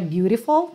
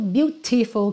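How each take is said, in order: First: The middle T is a quick flapped sound. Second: The middle T is a clear T sound.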